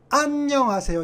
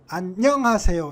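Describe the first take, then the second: First: The stress is on the first syllable. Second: The stress is on the second syllable. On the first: "압음절에 강세가 있다고 그랬으니까" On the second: "이음절에 강세가 있으면"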